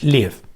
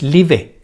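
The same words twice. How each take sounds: First: The word ends on the v, no added vowel. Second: A vowel sound is added after the final v. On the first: The speaker calls it right. "Ese verbo no pronuncia la E, es live" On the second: The speaker calls it wrong. "no es live"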